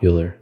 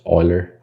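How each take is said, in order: First: Euler said as "YOU-ler"; Euler starting with YOU, not OY; mispronounced YOU-ler. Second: Euler said as "OY-ler"; Euler starting with OY, not YOU; pronounced OY-ler. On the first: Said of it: "not Euler". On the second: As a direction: say Euler with an oy sound, like oiler. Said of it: "I actually think this is pronounced". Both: Shown as a demonstration.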